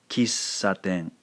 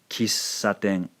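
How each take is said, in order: No difference in how they are said.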